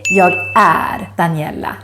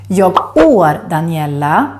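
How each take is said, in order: First: The vowel in 'är' sounds like neither word. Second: The vowel in 'är' sounds like English 'or'. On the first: The speaker calls it right. "the one you should say" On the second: The speaker calls it wrong. "or or"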